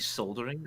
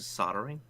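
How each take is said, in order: First: The L sound is clearly pronounced. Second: The L sound is left out. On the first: "You say soldering" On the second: "as opposed to soldering"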